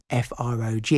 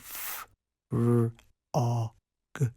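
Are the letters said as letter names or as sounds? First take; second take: letter names; sounds. First: Each letter is said by its letter name. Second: Each letter is said as its sound. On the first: The speaker calls it wrong. "rather than" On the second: The speaker calls it right. "using the sounds rather than the letter names"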